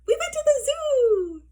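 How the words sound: It is said in a happy, cheerful voice. "in a happy voice"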